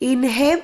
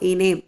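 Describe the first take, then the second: First: An h sound is pronounced in the middle. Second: No h sound is pronounced in the middle. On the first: The speaker calls it wrong. "ഹായുടെ sound ഇൻഹേം എന്നാക്കി പറയണ്ട" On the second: The speaker calls it right. "ഹാ ഇവിടെ silent ആണ്. പക്ഷെ ഉച്ചരിക്കുമ്പോൾ ഇനേം എന്നേ വരുള്ളൂ"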